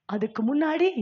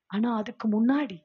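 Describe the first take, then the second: First: முன்னாடி rising as a question-like stress; repeated with emphasis. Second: Said in the usual way. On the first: Shown as a demonstration. Preacher repeating to the women to stress what came before. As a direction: lean on முன்னாடி and lift it at the end. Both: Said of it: "யாரா சொல்றீங்களா".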